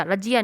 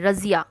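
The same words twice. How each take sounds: First: रजिया said with a plain ज, no nukta; the wrong way, hard ज in रजिया; wrong pronunciation. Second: रजिया said with the ज़ sound, buzzing z; correct pronunciation. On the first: Teacher showing the wrong sound to pupils: रजिया with plain ज. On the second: Teacher giving pupils the right sound: रजिया with a z. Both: Shown as a demonstration. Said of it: "रजिया नहीं".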